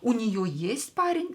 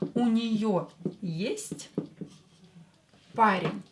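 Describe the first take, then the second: First: It is said with question intonation. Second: It is said with statement intonation. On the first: Does she have a boyfriend? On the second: She has a boyfriend.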